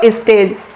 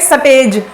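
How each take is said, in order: First: A short i vowel comes before the s. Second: No vowel comes before the s. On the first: "तो क्या बोलते हैं इसको" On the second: "जैसे हरियाणा वाले लोग हैं ... ई साउंड खा जाते हैं"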